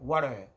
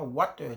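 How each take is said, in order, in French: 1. Il est prononcé avec un accent américain. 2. Il est prononcé avec un accent britannique. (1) "Mais ici, ils vont te dire water" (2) "British English, c'est très bon. Parce qu'on dit water"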